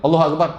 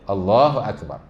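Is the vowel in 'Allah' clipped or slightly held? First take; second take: clipped; held. First: The vowel in Allah is clipped with no lengthening. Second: The vowel in Allah is held for two counts. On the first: The speaker calls it wrong. "tu tak ada langsung mat pula" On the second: The speaker calls it right. "that's it"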